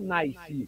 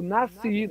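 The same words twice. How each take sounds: First: An extra i glide comes before the s sound. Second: The vowel is plain, with no added i glide. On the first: The speaker calls it wrong. "Põe um i na porra do que não tem i" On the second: The speaker calls it right. "Eu nasci"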